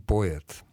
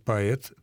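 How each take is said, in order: First: The first vowel is a clear, distinct o. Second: The first vowel is reduced, close to a. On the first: It follows an old, elegant tradition. "если мы хотим следовать вот этой старой и очень красивой, хорошей традиции" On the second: It follows the general modern pronunciation rule. "подстраивая это слово под общее правило произношения безударного «о», то есть превращение его, по сути дела, в звук почти что совпадающий с «а»"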